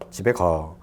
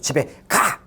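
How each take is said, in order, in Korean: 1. 끝이 차분하고 평평하게 내려가는 억양이에요. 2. 끝이 날카롭고 강하게 명령하는 억양이에요. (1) "정보 전달" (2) "이건 명령"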